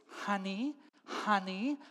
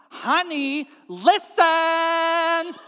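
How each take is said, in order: First: Restrained, rising "honey"; coaxing call. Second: Loud, high, stretched-out "listen"; exasperated call. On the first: Wife calling husband over, coaxing. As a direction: call him over, lifting each word. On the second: Wife demanding husband's attention, exasperated. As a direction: escalate into a drawn-out yell. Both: Acted.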